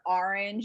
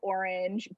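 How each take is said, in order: First: It is said with a Boston accent. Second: It is said with a neutral accent.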